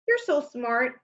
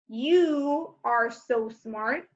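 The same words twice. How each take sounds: First: Said in the usual way. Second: "You are" drawn out slowly; very slow, full form. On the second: Shown as a demonstration. Teacher slowly showing the contraction's full form. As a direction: stretch "You are" word by word.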